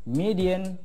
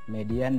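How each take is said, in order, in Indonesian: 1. Kata itu diucapkan dengan bunyi bahasa Inggris. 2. Kata itu diucapkan dengan bunyi bahasa Indonesia. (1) "Seperti itu cara bacanya dalam bahasa Inggris" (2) "supaya mudah saja ya"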